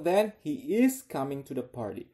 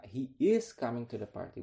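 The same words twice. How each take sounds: First: "is" pressed, louder, slow surprise; stress on is. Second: Said in the usual way. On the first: Shown as a demonstration. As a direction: sound surprised, lean on "is". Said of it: "lihat orang keduanya ngomong". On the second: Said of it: "Berarti tadinya dia pikir".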